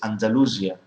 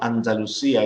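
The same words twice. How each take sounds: First: It is said with an English pronunciation. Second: It is said with a Spanish pronunciation. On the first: This is the form adopted into English. The speaker calls it right. "in English, if you look it up in the dictionary" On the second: This is the original local form of the name. The speaker calls it wrong. "it's not Andalusia"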